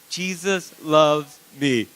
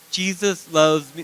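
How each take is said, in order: First: It is said with strong feeling and conviction. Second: It is said plainly, without much feeling.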